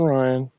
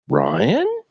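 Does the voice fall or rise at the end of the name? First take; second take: fall; rise. First: The pitch falls at the end of the name. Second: The pitch rises at the end of the name. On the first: The speaker calls it wrong. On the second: The speaker calls it right.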